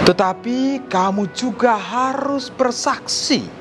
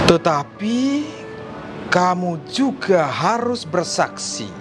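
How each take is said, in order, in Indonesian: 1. Suaranya agak lebih keras dan lebih tinggi. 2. Suaranya kecil dan pelan. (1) "kemudian pelan-pelan naik" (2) "dari awal bagaimana suara saya begitu kecil"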